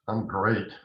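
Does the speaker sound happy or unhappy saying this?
unhappy. The tone sounds unhappy and ironic. The speaker is not doing well at all. "I just told you I am absolutely not great"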